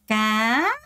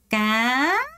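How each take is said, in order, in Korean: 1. 성조가 완전히 위로 올라가요. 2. 성조가 완전히 위로 올라가요.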